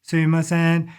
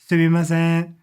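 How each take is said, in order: First: All syllables are said on an even, flat level. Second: The same.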